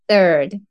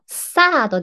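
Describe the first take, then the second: First: The word begins with a soft th sound. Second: The word begins with an s sound. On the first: The speaker calls it right. "th の今の口から言う" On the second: The speaker calls it wrong. "サードではなくて"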